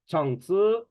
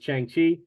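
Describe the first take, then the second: First: The name is said the Chinese or Malaysian way. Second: The name is said in an anglicized way. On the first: "Chinese people, Malaysians, they pronounce it as Chang Tzu" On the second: "I pronounce his name as Chang Chi"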